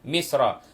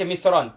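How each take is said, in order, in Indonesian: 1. Kata ini berakhir dengan vokal biasa. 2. Kata ini berakhir dengan bunyi n tambahan. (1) "Allah sebut misra, ia merujuk kepada bandar Mesir" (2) "Tiba-tiba kita baca misran, tak boleh"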